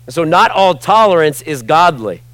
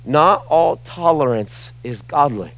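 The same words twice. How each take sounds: First: Not all tolerance is godly, with not punched and the whole line louder; a louder declaration leaning on "not"; stress on not. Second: "Not all tolerance is godly" said slowly, every word weighed; slow it down and land each word deliberately; a deliberate, slowed-down repeat for the crowd; slow emphatic restatement. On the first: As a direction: hit "not" hard and preach it out louder. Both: Real, not acted. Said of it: "Did you hear me?".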